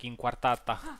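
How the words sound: It is said with a native Latin-language accent. The speaker calls it right. "pronounce it as it is"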